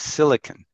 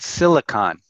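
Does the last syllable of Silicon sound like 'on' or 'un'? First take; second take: un; on. First: The last syllable has a reduced 'u' vowel. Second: The last syllable has a full 'o' vowel. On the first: The speaker calls it right. "it's Silicon. ... It's like a U, it's not an O" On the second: The speaker calls it wrong. "it's not Silicon"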